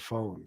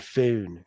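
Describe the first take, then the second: First: Said in the usual way. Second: "phone" with a fronted oh, close to "fewn"; "phone" with an exaggerated Philly vowel; Philly pronunciation of phone. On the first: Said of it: "instead of phone". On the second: Shown as a demonstration. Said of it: "Philly people say".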